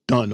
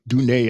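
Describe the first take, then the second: First: The vowel is short, like in 'fun'. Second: The vowel is long, like in 'moon'.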